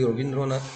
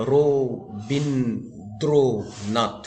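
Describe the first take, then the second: First: Said in the usual way. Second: রো, বিন, দ্রো, নাথ as four separate beats; syllable by syllable. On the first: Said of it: "এটা কটা ঝোঁক দিয়ে উচ্চারণ করতে পারবো". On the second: Shown as a demonstration. Teacher counting syllables for students, রো, বিন, দ্রো, নাথ each said separately. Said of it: "চারটে ঝোঁকে আমরা উচ্চারণ করলাম".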